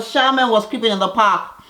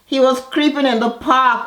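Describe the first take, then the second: First: "Charmaine" hit high and loud; stress on Charmaine. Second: "was" punched high and loud; stress on was. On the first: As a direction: set the record straight on "Charmaine". Correcting the name. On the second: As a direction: insist he "was" creeping. Mocking the husband's complaint. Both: Real, not acted.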